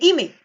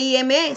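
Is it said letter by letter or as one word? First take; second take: one word; letter by letter. First: The letters are spoken as one word. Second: Each letter is spoken separately. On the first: The speaker calls it right. "pronunciarlo como una sola palabra" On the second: The speaker calls it wrong. "usted no dice I M E"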